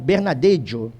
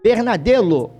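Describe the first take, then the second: First: The double L is said as a J sound. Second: The double L is said as an L sound. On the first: The speaker calls it right. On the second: The speaker calls it wrong.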